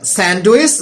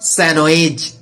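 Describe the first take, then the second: First: The D sound is pronounced in the word. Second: The D sound is silent in the word. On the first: The speaker calls it wrong. "We say that sandwich" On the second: The speaker calls it right. "but correct pronunciation sandwich"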